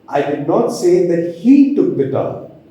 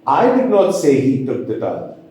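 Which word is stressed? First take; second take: he; I. First: The stress falls on the word he. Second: The stress falls on the word I. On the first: Someone else may have taken the towel. "I will put the stress on the word he" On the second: Someone else said the towel was taken. "if the stress is on the word I, the first word"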